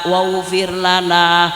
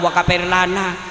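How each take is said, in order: First: The word is said smoothly as 'waghfir'. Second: The word is split and said as 'wa kafir'. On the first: This is what the person was told to read. The speaker calls it right. "dikongkon maca" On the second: This is how the person actually read it. The speaker calls it wrong. "salah kabeh sing diwaca"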